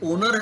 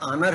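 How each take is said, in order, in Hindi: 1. पहला स्वर गोल होठों वाला 'o' है। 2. पहला स्वर खुला 'aa' है। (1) "ना ओनर है" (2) "ना आनर है"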